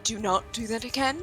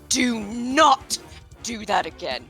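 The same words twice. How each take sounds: First: It is said in a calmer, quieter way. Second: It is said loudly and angrily.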